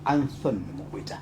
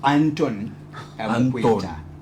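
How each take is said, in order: First: The name is said in a British accent. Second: The name is said in a Zambian accent. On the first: "a London, a British way, is gonna be something like" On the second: "not the, the Zambian way. It's gonna be"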